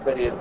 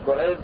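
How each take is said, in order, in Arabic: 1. الصوت الأول هو 'a' مفتوح. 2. الصوت الأول هو 'u' مدوّر. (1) "لا يقال أن أيوب بن كريز هو كريز" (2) "أصله هو أيوب بن كريز"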